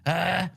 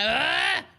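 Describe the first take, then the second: First: It is a smaller, weaker yell. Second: It is a bigger, more powerful yell.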